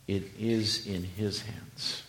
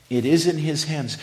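First: Slow and soft, dropping low. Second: Louder repeat with a higher push on in. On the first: Preacher assuring the congregation, slow and soft. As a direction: ease it out gently. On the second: Preacher repeating for emphasis, louder and higher. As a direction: drive it home the second time. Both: Shown as a demonstration.

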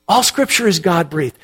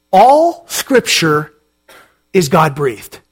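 First: Said in the usual way. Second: "All" stressed, said slowly with a pause before "is God-breathed"; slow emphatic. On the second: Shown as a demonstration. Pastor presenting the key verse to the congregation, slow and emphatic. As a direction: lean hard on "All" and let it land slowly. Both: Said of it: "discuss the statement that we just read".

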